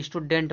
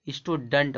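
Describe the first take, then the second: First: "स्टूडेंट" with a clear -dent ending; wrong pronunciation. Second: "स्टूडेंट" ending in a weak -dunt; "स्टूडेंट" with uh before nt; correct pronunciation. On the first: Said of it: "गलत है". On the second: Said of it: "पढ़ा जाता है". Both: Shown as a demonstration.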